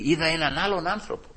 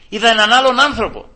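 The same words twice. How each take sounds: First: Softly told, with hushed wonder; quiet testimony. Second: Loud, high-pitched amazement; emphatic exclamation. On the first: Preacher reports the coworker changed, quiet testimony. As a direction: share it softly with the congregation. First take of repeated testimony. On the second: Preacher proclaims the coworker's change to the congregation, emphatic exclamation. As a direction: proclaim it with a sudden lift. Same testimony repeated with force. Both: Real, not acted.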